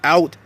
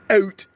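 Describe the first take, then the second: First: It is said in a plain American accent. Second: It is said in a Canadian accent.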